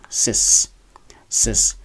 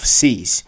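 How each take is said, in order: First: Cis with a short i, like "sis"; short vowel. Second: Cis stretched to "seez"; long-vowel mispronunciation. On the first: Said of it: "pronounced with a short vowel". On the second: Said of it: "instead of cis". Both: Shown as a demonstration.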